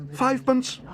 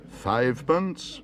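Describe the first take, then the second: First: Very high, loud eager bid; excited cry. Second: Slow, raised, rising question; auctioneer's incredulous repeat. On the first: Paddington bidding for the marmalade stand, crying excitedly. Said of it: "cried Paddington excitedly". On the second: Auctioneer repeating Paddington's tiny bid, questioning slowly. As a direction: draw it out in disbelief. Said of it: "repeated the auctioneer". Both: A narrator's reading.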